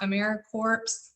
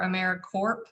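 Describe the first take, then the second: First: The ending sounds like corpse, with p and s. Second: The ending sounds like corp, with a p. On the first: "It is not AmeriCorps" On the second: "or AmeriCorp"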